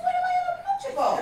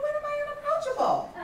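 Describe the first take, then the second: First: Very high, fast, laughing disbelief; shocked squeal. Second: Much higher, taken-aback disbelief; incredulous question. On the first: [name] asking friend Tyra, fast laughing disbelief. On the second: [name] disbelieving her mother's verdict, incredulous. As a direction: protest it can't be true. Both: Retold or imitated.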